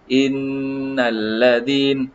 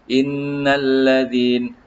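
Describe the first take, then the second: Both takes have the same delivery.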